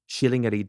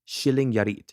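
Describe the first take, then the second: First: The name is read the official Swedish way. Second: The same.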